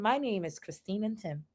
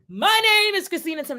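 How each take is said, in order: First: It is said at a calm volume. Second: It is screamed very loudly.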